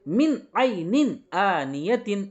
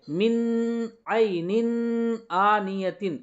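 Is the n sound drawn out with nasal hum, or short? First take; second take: short; drawn out. First: The n is short and clear, without nasal hum. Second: The n is drawn out with a nasal hum. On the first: The speaker calls it right. "नून की आवाज को जाहिर करके बगैर गुन्ना के जल्दी पढ़ेंगे" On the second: The speaker calls it wrong. "ऐसे नहीं पढ़ेंगे"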